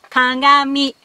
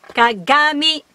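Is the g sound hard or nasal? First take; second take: nasal; hard. First: The middle consonant is a nasal ng. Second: The middle consonant is a hard g. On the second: "ordinarily ga"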